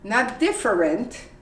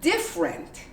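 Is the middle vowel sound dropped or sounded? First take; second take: sounded; dropped. First: The middle vowel is sounded. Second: The middle vowel is dropped. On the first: The speaker calls it wrong. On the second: The speaker calls it right.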